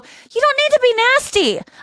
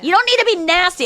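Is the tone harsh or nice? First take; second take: nice; harsh. First: It is said in a calm, nice tone. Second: It is said in a harsh, angry tone. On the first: The speaker stayed polite and composed. The speaker calls it right. "I was really nice about it" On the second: The speaker had lost their temper. The speaker calls it wrong. "I wasn't like"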